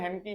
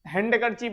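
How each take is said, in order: First: The d sound is left silent. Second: The d sound is clearly pronounced. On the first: The speaker calls it right. "हैंड की बोलते हैं" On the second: The speaker calls it wrong. "हैंड करचीप नहीं बोलते"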